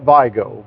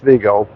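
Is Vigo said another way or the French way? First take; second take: another way; French. First: The name is said in a non-French way. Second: The name is said in a French way. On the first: This is how most people say it. "A lot of people call it Vigo" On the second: This is the way the school principal required. "she made sure we only use Vigo"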